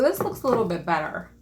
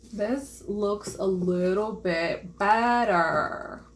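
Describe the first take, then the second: First: Said in the usual way. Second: Very slow, stretched-out delivery; slow, deliberate repeat with a long "better"; drawn out. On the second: Real, not acted. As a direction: stretch every word, lingering on "better". Repeats it slowly for effect.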